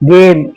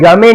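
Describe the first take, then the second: First: The final e is left silent. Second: The final e is sounded as a vowel. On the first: The speaker calls it right. "ई को silent करते हैं" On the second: The speaker calls it wrong. "इसे गमे नहीं"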